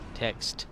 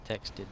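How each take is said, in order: First: It is one syllable, with no added ending. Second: It is two syllables, ending in an extra 'id'. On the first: The speaker calls it right. "It's T E X T E D, text" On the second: The speaker calls it wrong. "But people say text id"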